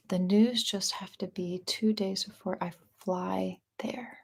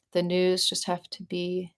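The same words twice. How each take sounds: First: Breathy whisper, slow, much softer; secretive whispered repeat. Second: Said in the usual way. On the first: Shown as a demonstration. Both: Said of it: "Say that one more time".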